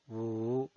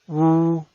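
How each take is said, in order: First: The pitch dips low, then rises. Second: The pitch stays high and level. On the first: "desciende primero ... para ascender luego" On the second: "El primer tono es alto y sostenido"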